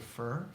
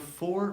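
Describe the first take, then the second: First: The vowel is reduced, like 'fur'. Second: The vowel is full, like 'or'.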